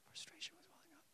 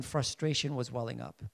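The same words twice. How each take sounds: First: Whisper. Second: Said in the usual way. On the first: Shown as a demonstration. Preacher whispering his rising frustration to the congregation. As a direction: whisper it, no voice at all.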